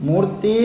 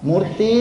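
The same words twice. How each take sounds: Both takes have the same delivery.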